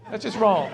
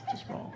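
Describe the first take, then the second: First: Said in the usual way. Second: Muttered echo. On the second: Real, not acted.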